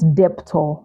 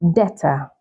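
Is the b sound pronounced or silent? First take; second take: pronounced; silent. First: The b sound is pronounced. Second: The b sound is silent. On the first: The speaker calls it wrong. "not debtor" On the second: The speaker calls it right. "the B is usually silent"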